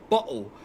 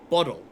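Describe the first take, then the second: First: The middle consonant is a clear T sound. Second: The middle consonant is a soft D sound. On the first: The speaker calls it wrong. "We don't say bottle" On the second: The speaker calls it right. "We say bottle. We replace our T's with D's"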